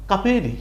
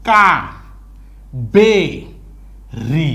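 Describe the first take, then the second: First: Said in the usual way. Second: KA, BE, RI as three separate beats with long gaps; syllable by syllable. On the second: Shown as a demonstration. Teacher shows learners direct reading, syllable by syllable. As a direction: break Kaveri into isolated syllables. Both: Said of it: "আপনি তখন বলবেন সোজা".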